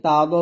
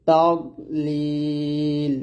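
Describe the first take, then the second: First: তাদ with a bouncing kalkala দ; wrong bounced dad. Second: তাদলিল slow, with a thick দ and no bounce; heavy dad. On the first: Teacher shows the common mistake on তাদ. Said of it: "দ থেকে কলকলা করে ফেলি". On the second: Teacher models the correct তাদলিল. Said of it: "বলতে হবে". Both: Shown as a demonstration.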